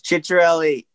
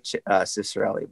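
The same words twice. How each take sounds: First: The name has an Italian pronunciation. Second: The name has an anglicized North American pronunciation. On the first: This is how it is said in Italy. "So it's Cicccarelli in Italy" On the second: This is how North Americans say it. "Us like North Americans, we say Cicccarelli"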